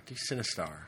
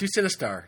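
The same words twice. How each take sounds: First: Sinistar voice. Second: Said in the usual way. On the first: Shown as a demonstration. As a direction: lower and softer robotic boom.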